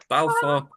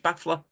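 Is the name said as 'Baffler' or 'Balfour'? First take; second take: Balfour; Baffler. First: The name is said as 'Balfour', with an L. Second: The name is said like 'baffler', without an L. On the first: This is the accepted way to say the name. "Okay then. I'll conform" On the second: This is the name as they used to say it. "that's what we used to call it"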